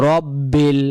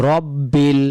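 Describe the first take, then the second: The two takes are said the same way.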